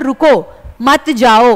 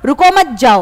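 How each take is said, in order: First: The pause comes after the first word, 'ruko'. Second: The pause comes after the second word, 'mat'.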